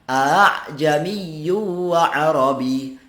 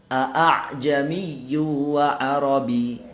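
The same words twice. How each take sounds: First: The second glottal catch is softened and eased. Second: The second glottal catch is pronounced fully. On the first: "yang pertama jelas, yang kedua dimudahkan" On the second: "Ini tanpa tashil"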